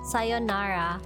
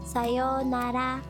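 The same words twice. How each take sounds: First: The vowel after 'say' is short. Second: The vowel after 'say' is long. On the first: The speaker calls it wrong. "A lot of people, I hear them say sayonara" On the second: The speaker calls it right. "it's actually spelled as with an u"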